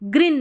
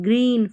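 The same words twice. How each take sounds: First: The vowel is short and clipped. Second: The vowel is long and stretched. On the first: The speaker calls it wrong. "ग्रीन नहीं" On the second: The speaker calls it right. "Long ई का उच्चारण खींच के"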